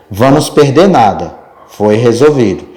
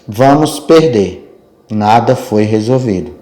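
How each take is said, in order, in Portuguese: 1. Há uma pausa depois de 'nada'. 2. Há uma pausa depois de 'perder'. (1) "completamente diferentes" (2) "a vírgula tem esse poder"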